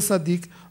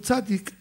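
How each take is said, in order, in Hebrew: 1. המילה מתחילה בצליל s. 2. המילה מתחילה בצליל ts. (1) "לא סדיק" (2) "אומרים צדיק"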